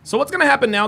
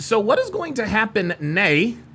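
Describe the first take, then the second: First: 'Now' is said with a standard accent. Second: 'Now' is said with an Irish accent.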